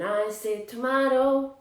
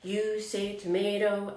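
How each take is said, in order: First: "tomato" with an AH in the middle; British pronunciation. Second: "tomato" with an AY in the middle; American pronunciation. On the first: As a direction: say "tomato" as tuh-MAH-toh. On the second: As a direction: say "tomato" as tuh-MAY-toh. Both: Shown as a demonstration. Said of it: "know about this song".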